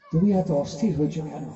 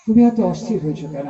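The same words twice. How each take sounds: First: Gentle hushed asking, much softer and lower; soft calm question. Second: Asked with a light laugh, at normal level; smiling question. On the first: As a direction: ask it softly like a serene Buddha. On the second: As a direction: let a chuckle into the calm question. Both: A narrator's reading. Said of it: "স্মিত হেসে বলছেন".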